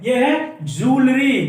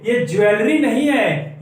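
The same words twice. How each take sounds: First: ज्वेलरी said as "joolery", the correct way; correct pronunciation. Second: ज्वेलरी said as "jewelry", the common wrong way; wrong pronunciation shown. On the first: Teacher giving the right way to say ज्वेलरी. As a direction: say ज्वेलरी carefully and slowly, correctly. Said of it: "ज्वेलरी बोलते हैं इसको". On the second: Teacher showing the wrong way to say ज्वेलरी. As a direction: say ज्वेलरी the shop-sign way, as a mistake. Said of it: "ज्वेलरी बोलते हैं इसको, ज्वेलरी मत बोलिएगा". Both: Shown as a demonstration.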